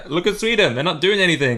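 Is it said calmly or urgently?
urgently. It is said in an urgent, alarmed way.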